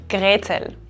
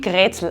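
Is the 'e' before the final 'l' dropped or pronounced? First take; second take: pronounced; dropped. First: The ending is said in full as 'el'. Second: The ending is shortened to just 'l'.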